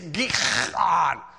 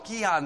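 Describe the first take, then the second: First: The middle consonant is a harsh throaty sound. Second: The middle consonant is a soft, light h. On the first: The speaker calls it right. "it's Gihon" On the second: The speaker calls it wrong. "I know I'm saying it wrong"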